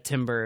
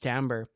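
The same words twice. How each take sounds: First: The word is said the way it is spelled. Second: The word is not said as it is spelled. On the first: The speaker calls it wrong. "someone said something about a timbre of your voice" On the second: The speaker calls it right. "no, it's timbre"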